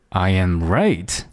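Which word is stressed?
right. The stress is on the word right. I am right, not wrong. "第三个哒哒哒I am right"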